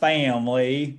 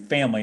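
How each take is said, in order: First: It is said in a put-on Southern accent. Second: It is said in the speaker's plain accent. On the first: This imitates a faked Southern way of saying it. The speaker calls it wrong. "not family" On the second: This is the speaker's normal way of saying it. The speaker calls it right. "Family like I usually do"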